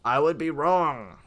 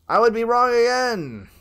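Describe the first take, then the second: First: Said in the usual way. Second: Exasperated call. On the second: Real, not acted. Player admitting another wrong guess, loud exasperated cry. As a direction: raise it into a loud lament. Same words repeated, more exasperated.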